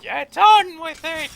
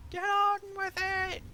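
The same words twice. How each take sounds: First: Loud, slow, drawn-out yell; slow booming chant of get on with it; Monty Python shout. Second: Much higher, comic put-on voice; high cartoonish echo of the chant; Monty Python squeak. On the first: Retold or imitated. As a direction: bellow it like the Python crowd. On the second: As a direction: squeak it like a silly Python character. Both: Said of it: "Like Monty Python".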